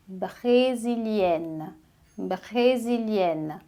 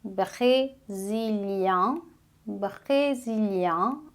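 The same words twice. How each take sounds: First: Brésilienne, slow, with a clear n at the end; sounded double n. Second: Brésilien, slow, ending in a nasal vowel with no n. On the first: Teacher modelling the feminine for students, slow. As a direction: draw brésilienne out and land on the n. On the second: Teacher modelling the masculine for students, slow. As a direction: stretch brésilien out and keep the end nasal. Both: Shown as a demonstration. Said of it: "você vai duplicar o N".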